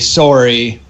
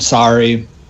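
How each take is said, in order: First: It is said with a Canadian vowel. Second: It is said with an American vowel. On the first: "most Canadians would say sorry" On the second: "we're trained to speak American. So we say out and sorry"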